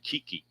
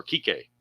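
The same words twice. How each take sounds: First: Kiki said KEE-kee, ending on an ee sound; Kiki, the first try. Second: Kike said KEE-kay, ending on an ay sound; Kike, the correction. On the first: Commentator names the Dodgers' Hernandez, trying Kiki as KEE-kee. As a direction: say Kiki as KEE-kee before correcting it. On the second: Commentator corrects himself on the Dodgers' Hernandez, saying Kike as KEE-kay. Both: Shown as a demonstration. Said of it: "or Kike".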